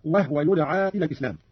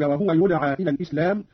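First: "وهو" said "wahwa", two syllables; no vowel on the h of "وهو"; silent-vowel ha. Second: Said in the usual way. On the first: Shown as a demonstration. (إسكان الهاء في "وهو") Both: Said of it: "قرأ قالون بإسكان الهاء".

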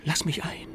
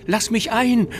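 First: Breathless whispered plea, full of grief; sobbing whisper. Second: Higher, louder wailing plea. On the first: Ghost child sobs at the window to be let in, whispering. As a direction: whisper it like a lost child begging at night. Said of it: "eine todtraurige Stimme schluchzte". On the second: Ghost child wails at the window to be let in, wailing loudly. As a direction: wail it, begging desperately. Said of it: "Immer noch jammerte es". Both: Acted.

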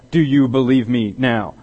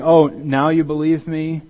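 First: Said in the usual way. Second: Slow, higher, drawn-out sarcastic question; slow sarcastic jab at late believers; sarcastic disbelief. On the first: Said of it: "It wasn't that kind of". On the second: Retold or imitated. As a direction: stretch the "Oh" in mock surprise. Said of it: "It was almost as if he were saying".

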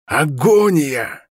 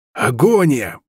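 First: Агония drawn out, very slow; hoarse slow cry. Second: Rasped spell cry, Агония falling; hoarse shout. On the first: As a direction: drag out Агония harshly. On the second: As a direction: croak out Агония. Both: A narrator's reading. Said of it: "прохрипел Стерлинг".

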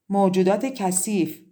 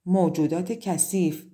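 First: موجودات کثیف said louder, pushed out with a falling end; insistent repeat. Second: Said in the usual way. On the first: A narrator's reading. Daughter repeating the curse to her mother, louder and insistent. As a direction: force the curse out again. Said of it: "تکرار کرد".

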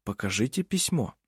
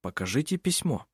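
First: Softer, calm and even «Покажите письмо»; calmly repeated. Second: Softer, calm and even «Покажите письмо»; softly. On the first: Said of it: "спокойно повторил Хейке". (спокойно и тихо: «Покажите письмо») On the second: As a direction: say «Покажите письмо» gently, without pressure. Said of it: "так же мягко сказал Хейке". (мягко и тихо: «Покажите письмо») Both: A narrator's reading.

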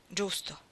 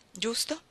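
First: Resigned agreement, "giusto" falling. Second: Doubtful rising giusto?; "Giusto?" lifted at the end as a question; questioning rise. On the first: Confirming quietly. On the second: Questioning the other's reply. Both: Acted.

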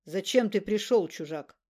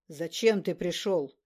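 First: Loud booming, dropping at the end; booming thunder and wind. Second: Booming slow echoing voice; booming thunder and wind. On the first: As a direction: boom the question, then fade. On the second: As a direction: thunder it out like a god. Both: A narrator's reading. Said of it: "могучим эхом прогремел голос Адаманта".

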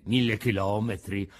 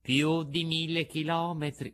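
First: Low-pitched, taken-aback echo; dismayed echo. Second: Said in the usual way. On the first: A narrator's reading. Pinocchio hearing how far the beach is, dismayed echo. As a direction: repeat the distance in dismay.

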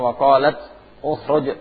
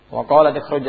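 First: Qalat ukhruj with the original u sound; original form. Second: Qalat ikhruj read with an i linking the two words; recited as written. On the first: Teacher shows the original form to students, careful recitation. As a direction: pronounce ukhruj starting with u, not i. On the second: Teacher recites the verse as written, plain recitation. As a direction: say ikhruj with a clear i after qalat. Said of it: "aslinya wa qalat ukhruj". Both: Shown as a demonstration.

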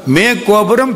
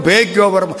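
First: "மே கோபுரம்" with a clear m and rising end; "மே" ம ஒலியுடன்; mey with M. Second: "பே கோபுரம்" with a crisp p and falling end; "பே" ப ஒலியுடன்; pey with P. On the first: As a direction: lips closed on "மே". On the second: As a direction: pop the p on "பே". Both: Shown as a demonstration. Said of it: "மாவும் பாவும் மாறும்ல".

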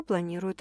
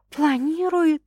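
First: Said in the usual way. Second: High, questioning echo; raised-pitch rhetorical question; incredulous echo. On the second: A narrator's reading. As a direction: toss the word back in disbelief. Echoes the word as a question.

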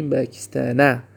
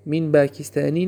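First: "پاکستان" ends without kasra; the correct "من پاکستان", no -i ending; "پاکستان" ends with no added vowel; correct form. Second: "پاکستانی" said with an added -i kasra ending; the incorrect form "من پاکستانی"; "پاکستانی" with a wrong kasra -i at the end. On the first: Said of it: "من پاکستانی نه". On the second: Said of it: "نه". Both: Shown as a demonstration.

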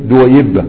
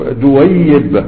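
First: دويبة with a light single ya and doubled ba; correct pronunciation. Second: دويبة said slowly with a doubled, stressed ya; wrong doubled ya. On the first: Teacher gives the student the right form, plain and clear. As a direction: say دويبة cleanly, ya unstressed, ba doubled. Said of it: "لكن الصواب إنها إيه". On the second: Teacher shows a student the wrong way, slow and doubled. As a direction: drag out دويبة with the ya doubled, as the mistake. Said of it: "دي الياء مشددة". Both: Shown as a demonstration.

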